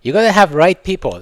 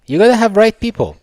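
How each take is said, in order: First: Said in the usual way. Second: Gotta hammered high and loud; emphatic repeat. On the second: Real, not acted. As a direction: repeat "You gotta have right people" louder and higher.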